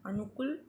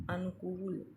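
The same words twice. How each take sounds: First: "अनुकूल" ending in short -kul, rising; wrong-form demo, short kul in "अनुकूल"; mispronounced short u. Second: "अनुकूल" ending in long -kool, falling; correct long u. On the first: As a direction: clip the last vowel of "अनुकूल". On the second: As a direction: hold the oo in "अनुकूल". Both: Shown as a demonstration. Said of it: "बड़े ऊ के स्थान पर छोटा ऊ".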